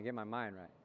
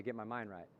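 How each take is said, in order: First: Low, soft mantra again repeated; steady it inward. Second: Low, soft mantra. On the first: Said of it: "Say it again". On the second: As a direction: quietly set your mind. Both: Shown as a demonstration.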